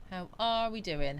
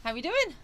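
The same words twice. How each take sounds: First: Said in the usual way. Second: High, bright-pitched call of how we doing, falling on doing; sing-song greeting. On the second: Acted.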